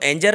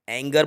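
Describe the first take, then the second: First: The g is sounded like j. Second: The g is sounded hard. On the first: The speaker calls it wrong. "इसको एंजर नहीं" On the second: The speaker calls it right. "एंगर बोला जाएगा"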